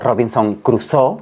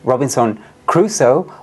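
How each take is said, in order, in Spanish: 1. El nombre se pronuncia a la manera francesa. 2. El nombre se pronuncia a la manera inglesa.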